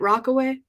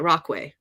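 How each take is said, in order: First: The middle 'a' syllable is pronounced. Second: The middle 'a' syllable is left out. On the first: "Am I pronouncing it right?" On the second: "Like the A is silent"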